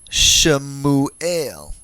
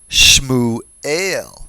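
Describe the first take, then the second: First: A brief vowel separates the first two consonants. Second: The first two consonants form a tight cluster. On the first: The speaker calls it right. "a slight pronunciation to break up the consonant cluster" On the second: The speaker calls it wrong. "Hypothetically, you might read this"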